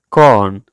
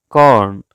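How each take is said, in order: The two takes are said the same way.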